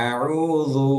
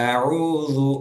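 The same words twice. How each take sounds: The two takes are said the same way.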